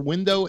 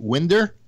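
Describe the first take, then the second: First: The word ends with an 'oh' sound. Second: The word ends with an 'er' sound. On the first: "is it the new pronunciation for window" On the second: "the new pronunciation for window a winder"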